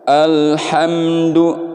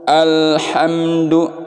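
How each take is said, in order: The two takes are said the same way.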